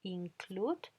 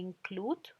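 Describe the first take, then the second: No difference in how they are said.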